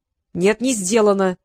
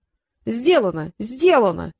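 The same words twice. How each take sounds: First: Firm, cut-off contradiction; curt refusal. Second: Drawn-out "Сделано", then said once more; evasive assurance. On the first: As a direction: cut the other off flatly with a no. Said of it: "отрезал Трикс". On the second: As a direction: insist slowly that it's done, dodging the point. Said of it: "продолжал юлить Китап". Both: A narrator's reading.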